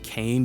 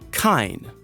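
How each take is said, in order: First: The name rhymes with 'cane'. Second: The name rhymes with 'fine'. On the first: The speaker calls it wrong. "I used to always call him Kane" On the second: The speaker calls it right. "I just found out I've been saying it wrong this entire time"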